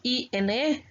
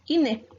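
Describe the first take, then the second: First: Each letter is named separately, one by one. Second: The letters are pronounced together as one word. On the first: The speaker calls it wrong. "no decimos I N E" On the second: The speaker calls it right. "sino decimos I N E"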